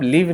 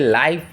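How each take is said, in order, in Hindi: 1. स्वर छोटा है, 'give' की तरह। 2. स्वर लंबा है, 'five' की तरह। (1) "इसको हम लिव नहीं पढ़ते हैं" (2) "इसे लाइफ पढ़ते हैं"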